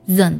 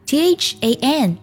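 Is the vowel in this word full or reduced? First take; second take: reduced; full. First: The vowel is reduced to a weak schwa. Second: The vowel is said fully and clearly.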